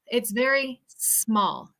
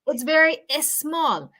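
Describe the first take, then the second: First: The S starts directly with no vowel. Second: An extra vowel is added before the S. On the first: The speaker calls it right. "We want to say" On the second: The speaker calls it wrong. "we don't want to say"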